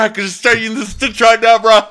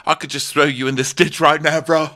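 First: Much higher and louder, a hammed-up dudebro threat; mock bro voice. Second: Said in the usual way. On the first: Retelling the boyfriend's ditch joke, mock bro voice. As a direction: ham it up like a meathead bro joking about violence. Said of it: "He said". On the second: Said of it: "he made a joke saying".

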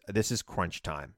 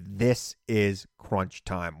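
First: Said in the usual way. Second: "This is crunch time" very slow, hitting "This"; slow emphatic stress. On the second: Real, not acted. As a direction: drive home "This" slowly, word by word. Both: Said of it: "repeats slogan for emphasis".

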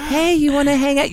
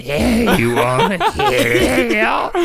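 First: High, light friendly voice for animals; high-pitched coaxing of a pet; sweet talk. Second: Mocking, drawn-out gremlin voice; slow hammed-up monster imitation. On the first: Shown as a demonstration. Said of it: "when you talk to something sweet". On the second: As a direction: stretch it out like a creepy gremlin, breaking into laughter. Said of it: "You're talking to him like a gremlin".

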